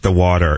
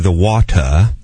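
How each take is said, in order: First: It is said in an American accent. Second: It is said in a British accent. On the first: "not the water" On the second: "she would do the water"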